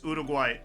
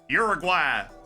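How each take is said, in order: First: It is said with a Spanish pronunciation. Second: It is said with an English pronunciation. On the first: "If you want to say it like that" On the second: "Uruguay works too"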